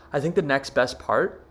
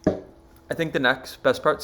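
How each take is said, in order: First: Said in the usual way. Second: Speaking between sips of water; while drinking water. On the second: Real, not acted. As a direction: talk with a mouthful of water. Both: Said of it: "sorry, I'm drinking water".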